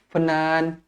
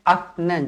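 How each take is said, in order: First: A vowel is sounded right after the f. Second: The f is held with no vowel after it. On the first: The speaker calls it wrong. "tak boleh" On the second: The speaker calls it right. "Dia akan afnan"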